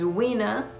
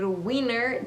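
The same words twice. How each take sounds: First: The R at the end is dropped. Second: The R at the end is pronounced. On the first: "elimina la R al final de las palabras" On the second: "En lugar de decir winner"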